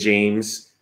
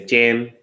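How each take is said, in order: First: The name is said with an American accent. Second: The name is said with a Vietnamese accent.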